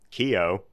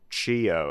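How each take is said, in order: First: It does not begin with the 'ch' sound. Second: It begins with the 'ch' sound of 'chi'. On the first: The speaker calls it wrong. "I immediately go Kyo" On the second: The speaker calls it right. "I was supposed to pronounce it Chio, as in like channeling your chi"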